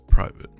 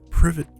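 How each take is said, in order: First: It is said like 'private', with a long first vowel. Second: It is said like 'privet', with a short first vowel. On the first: The speaker calls it wrong. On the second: The speaker calls it right.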